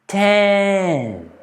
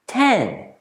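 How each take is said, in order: First: The number is said slowly and drawn out. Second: The number is said at normal speed. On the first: "then I'll say the number slowly" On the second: "I'll say the number in a normal speed"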